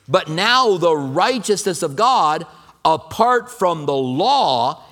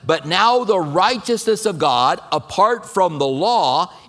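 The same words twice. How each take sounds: First: It is read at a noticeably slower pace. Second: It is read at a normal, quicker pace.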